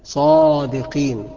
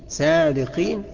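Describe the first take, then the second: First: The first letter sounds thick and heavy. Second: The first letter sounds thin and light. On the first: The speaker calls it right. "لا صادقين صا" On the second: The speaker calls it wrong. "ما أقولش صادقين"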